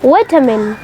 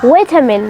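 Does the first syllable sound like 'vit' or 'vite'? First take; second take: vit; vit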